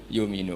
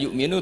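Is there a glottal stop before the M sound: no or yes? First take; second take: no; yes. First: A long U vowel replaces the glottal stop. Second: A glottal stop comes before the M sound. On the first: "ba'dad dhammah diganti wawu" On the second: "tidak yu'minu"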